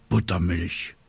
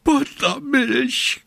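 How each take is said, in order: First: Said in the usual way. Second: Very high, drawn-out screech; screeching raven. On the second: A narrator's reading. Raven to little witch after botched spell, shrill screech. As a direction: screech the word slowly like an outraged bird. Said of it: "kreischte Abraxas".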